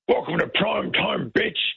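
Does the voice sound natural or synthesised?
synthesised. It is said in a warmed-up, synthesised voice.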